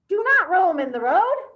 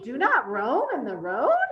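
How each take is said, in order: First: It is said forcefully with strong energy. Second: It is said with a rising, questioning tune. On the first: The speaker calls it right. "How about an exclamation mark? ... cranky or really full of energy" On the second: The speaker calls it wrong. "Did it sound like a question?"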